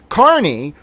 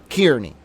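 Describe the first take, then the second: First: The first syllable sounds like 'car'. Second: The first syllable sounds like 'keer'. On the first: "Apparently his name is Aiden Carney" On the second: "the phonetic pronunciation should be K I E R N E Y"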